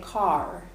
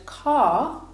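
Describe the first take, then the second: First: The final r is clearly pronounced. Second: The final r is not pronounced. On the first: "in American English they would. They would say car" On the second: "you can hear there that I don't pronounce the R"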